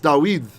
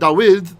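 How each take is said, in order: First: The second vowel is a long e. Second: The second vowel is short. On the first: The speaker calls it right. "so that is able to make a long e sound" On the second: The speaker calls it wrong. "Notice it's not"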